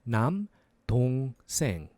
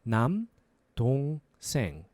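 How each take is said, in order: No difference in how they are said.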